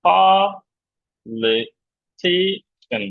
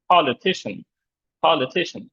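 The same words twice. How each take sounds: First: "politician" drawn out very slowly, pol and ti held high and strong; stretched teaching demo of "politician", stressed on pol and ti; light li and cian. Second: "politician" as one word, li and cian light; "politician" in connected syllables, main stress on ti; stressed pol and ti. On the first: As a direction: break "politician" into slow syllables, li and cian light. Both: Shown as a demonstration. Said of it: "ল আর সন আমি হালকা করে বলছি".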